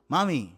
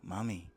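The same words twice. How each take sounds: First: Said in the usual way. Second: "Mami" sunk far lower and much softer; low sultry mami. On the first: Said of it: "you see the difference?". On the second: Shown as a demonstration. Comedian demonstrating the loaded, lowered mami to the audience. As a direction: breathe "Mami" low and quiet, seductive. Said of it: "I'm lowering my voice".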